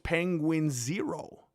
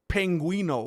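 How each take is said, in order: First: The name is said as two words, Penguin Zero. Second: The name is said as one word, Penguino. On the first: The speaker calls it right. "that's not how it reads" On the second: The speaker calls it wrong. "I always said it like Penguino"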